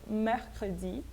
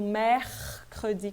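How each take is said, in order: First: Mercredi with a light but audible French R; subtle R. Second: Mercredi slowly with a strongly projected French R; pronounced R. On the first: French teacher toning down the over-projected R, subtle R. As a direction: soften the R in mercredi, keep it sounded. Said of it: "O R, ele é mais sutil". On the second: French teacher showing that this R is sounded, projected R. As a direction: linger on the R in "mehrrr-credi". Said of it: "eu tenho que pronunciar esse R". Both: Shown as a demonstration.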